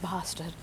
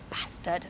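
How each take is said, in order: First: It is said with clipped RP vowels. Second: It is said with hard northern English vowels. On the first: "instead of" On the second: "I'm allowed to use all my very hard vowels"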